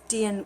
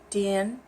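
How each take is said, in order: First: The tone falls throughout. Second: The tone falls and then rises. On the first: It means electricity. "This guy is Dian with the falling tone" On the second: It means a dot or a clock. "it's falling, rising"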